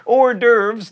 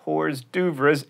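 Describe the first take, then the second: First: "Hors d'oeuvres" as or-DERVZ; correct hors d'oeuvres. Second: "hors d'oeuvres" slowly as horz doo-vrez; spelled-out hors d'oeuvres. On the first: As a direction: say "Hors d'oeuvres" the French way, silent S. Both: Shown as a demonstration. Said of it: "not hors d'oeuvres".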